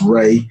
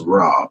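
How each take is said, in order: First: The word ends in an 'ay' vowel. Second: The word ends in an open 'ah' vowel. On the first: The speaker calls it right. "which is pronounced Ray" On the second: The speaker calls it wrong. "Falsely, some pronounce it as Ra"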